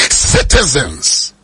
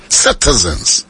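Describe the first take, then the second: First: Citizens stretched slowly with a fall; slow, drawn out. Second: Said in the usual way. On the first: Shown as a demonstration. Preacher to congregation, stretching Citizens slowly. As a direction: let Citizens hang slowly.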